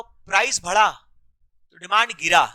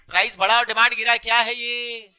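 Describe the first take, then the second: First: Slow, spaced out. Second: "price बढ़ा और demand गिरा" run together fast; rapid-fire. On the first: Teacher recaps for the class, slow and spaced out. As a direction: pause after "price बढ़ा", then "demand गिरा". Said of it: "इतना धीरे बोल रहे हो". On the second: Teacher hurries a hesitant class for an answer, rapid-fire. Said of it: "बोलो फटाफट". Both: Shown as a demonstration.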